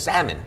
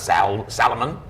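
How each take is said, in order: First: The L sound is silent. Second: The L sound is clearly pronounced. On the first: The speaker calls it right. "They said you can't hear the L" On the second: The speaker calls it wrong. "It's not Sal Salomon"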